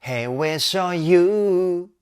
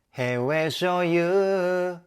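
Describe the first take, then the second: First: "Hey, we'll show you" sung slow and loud, crisp consonants dividing each word; clear English consonants. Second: "Hey, we'll show you" run together as one sung line; Japanese-style consonants. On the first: Vocal coach showing the right way, distinctly articulated English. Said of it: "英語の発音をしっかりと意識して歌うと". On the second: Vocal coach showing the mistake, blurred Japanese-style consonants. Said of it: "子音を日本語っぽく発音してしまうと". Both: Shown as a demonstration.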